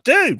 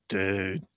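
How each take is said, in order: First: It sounds friendly, like a casual greeting. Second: It sounds dismayed, reacting to something bad. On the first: It greets someone. "if you're greeting someone" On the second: Something has gone badly wrong. "if something goes really bad"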